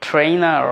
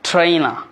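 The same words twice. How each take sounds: First: ট্রেনার with the final r held; American pronunciation. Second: ট্রেনার with the final r dropped; British pronunciation. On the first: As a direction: say ট্রেনার as "tray-nerr". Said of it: "American". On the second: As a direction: say ট্রেনার as "tray-na". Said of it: "British". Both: Shown as a demonstration.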